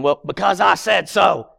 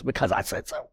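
First: Firm, emphatic parental comeback; exasperated parent. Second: Low-key, softened parental comeback; understated echo. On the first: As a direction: put your foot down as the parent. Parent answering child's repeated why. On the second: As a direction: toss it off quietly, as a gentle aside. Same answer, now from God. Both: Retold or imitated.

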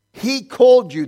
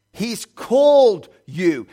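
First: Called hit short, high and much louder; loud punch. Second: Called stretched slowly, high and loud; slow emphasis. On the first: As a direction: fire the word called out quickly. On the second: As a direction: lean hard on called and draw it out. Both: Shown as a demonstration.

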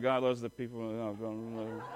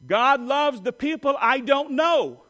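First: Low, grudging and joyless; mock reluctant. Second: Slow, loud, higher and glad; joyful call. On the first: Preacher mimicking reluctant churchgoers, grudging and low. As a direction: mumble it like you don't mean it. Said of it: "Some of you are like". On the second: Shown as a demonstration. Preacher calling the line for the church to repeat. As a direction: lead it out with warmth and joy. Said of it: "You repeat after me".

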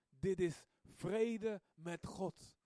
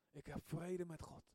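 First: Very slow, leaning on vrede; slow savouring. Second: Soft repeat. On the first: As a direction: draw out "vrede" as if tasting it. Savouring peace with God. (heel langzaam, "vrede" uitgerekt) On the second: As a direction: let "vrede" fall quietly into place. Repeating softly. (zacht nagezegd, "vrede" dalend) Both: Retold or imitated.

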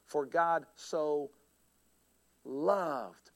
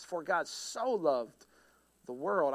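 First: "loved" set apart after a long pause, low and drawn out; slow build, pause, then dwell on "loved"; stress on LOVED. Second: "so" stretched out within the slow verse; slow down and lean on "so"; stress on SO. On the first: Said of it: "the next word". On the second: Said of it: "I would put emphasis on each word". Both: Shown as a demonstration.

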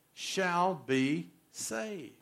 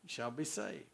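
First: Shall be saved stretched very slowly; preacher stretching the verse's final words; drawn-out scripture ending. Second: Shall be saved repeated much softer and lower; preacher murmuring the verse back; soft echo. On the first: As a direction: let each word of shall be saved hang, very slow. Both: Acted.

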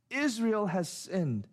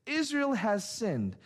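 First: Said in the usual way. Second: Slower, higher, pointed accusation; pointed, accusing statement; emphatic literal rendering. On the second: Shown as a demonstration. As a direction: say it like a stern charge, slowly and higher. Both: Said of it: "it would sound more like this".

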